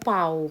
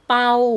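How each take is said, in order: First: The syllable is said on a rising tone. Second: The syllable is said on a level mid tone. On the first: "ใส่ไม้จัตวาค่ะ" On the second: "ปอเอาเปา"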